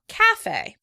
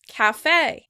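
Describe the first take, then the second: First: The stress is on the first syllable. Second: The stress is on the second syllable. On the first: "the word is stressed on the first syllable" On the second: "the word is stressed on the second syllable"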